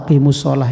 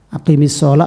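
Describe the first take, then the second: First: The first word ends with a u vowel. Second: The first word ends with an i vowel.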